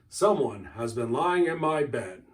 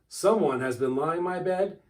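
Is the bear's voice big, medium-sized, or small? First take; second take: big; small. First: It is said in a great big bear's voice. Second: It is said in a little wee bear's voice.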